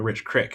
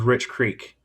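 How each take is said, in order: First: The second word has a short 'i' vowel. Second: The second word has a long 'ee' vowel. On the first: This is how other people sometimes say the name. The speaker calls it wrong. "sometimes when people call me Rich Crick" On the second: This is how the owner says the name. The speaker calls it right. "my last name is Rich Creek"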